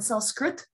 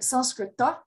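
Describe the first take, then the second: First: The word ends without the final vowel. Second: The word ends with a final a vowel. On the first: This is the modern form. "the more modern way of pronouncing it" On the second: This is the traditional Sanskrit form. "the Sanskrit way"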